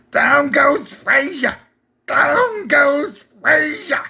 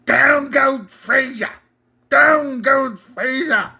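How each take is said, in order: First: High, slow announcer cry, stretched; weak Cosell impression, hammed up; Howard Cosell impression. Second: Higher, slow announcer call, slightly less pushed; second try at a ringside announcer; lightly voiced Cosell, still weak; Howard Cosell impression. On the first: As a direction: call it like a ringside announcer. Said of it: "Pretty weak, Howard Cosell". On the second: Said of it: "Still bad".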